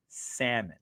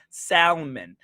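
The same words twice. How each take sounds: First: "salmon" said as "sa-mon" with no L sound, softly; silent L. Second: "salmon" said slowly as "SAL-mon" with a clear L; L sounded. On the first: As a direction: say "salmon" as "SAM-un", dropping the L. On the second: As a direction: drag out "salmon" slowly and land hard on the L. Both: Shown as a demonstration. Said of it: "I wanna say that L so bad".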